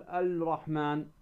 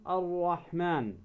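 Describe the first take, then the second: First: "الرحمن" said al-Rahman, with an audible L; wrong, sounded lam. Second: Slow "الرحمن" said ar-Rahman, silent L and doubled R; lam assimilated. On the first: Tajwid teacher showing the mistake, "الرحمن" as al-Rahman. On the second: Tajwid teacher showing the sun lam, "الرحمن" as ar-Rahman. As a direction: drop the L and hold a rolled R in "الرحمن". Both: Shown as a demonstration. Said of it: "ولا تقول الرحمن".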